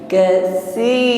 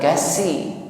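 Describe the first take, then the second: First: The consonant is a breathy th, tongue between teeth. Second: The consonant is a plain s, tongue behind teeth. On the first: The speaker calls it right. "ujung lidah sedikit keluar" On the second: The speaker calls it wrong. "bukan kasi"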